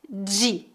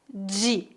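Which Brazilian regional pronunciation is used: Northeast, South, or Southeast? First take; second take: Southeast; Southeast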